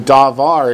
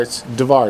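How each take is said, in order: First: Davar with a drawn-out long ah at the start; davar, long ah first. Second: Davar with a short first vowel and the stress on var; davar, short, accent on the last syllable. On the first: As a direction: stretch the first vowel of davar. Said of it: "instead of a long ah at the beginning". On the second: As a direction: clip the start of davar and land on the end. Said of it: "It's real short, and the accent's real clear that it's on the last syllable". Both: Shown as a demonstration.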